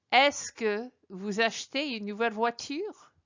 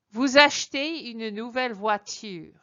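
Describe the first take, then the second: First: "Est-ce que vous achetez une nouvelle voiture?" asked with the voice rising at the end; question tune. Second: "Vous achetez une nouvelle voiture" said as a plain statement with the tune falling at the end. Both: Shown as a demonstration. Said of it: "de trois façons différentes".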